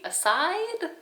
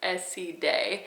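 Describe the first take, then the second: First: It sounds like the English word aside. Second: It does not sound like English aside. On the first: This is how the speaker used to say it. The speaker calls it wrong. "I used to say aside" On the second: This is close to the brand's own pronunciation. The speaker calls it right. "supposedly it's pretty close to Acide"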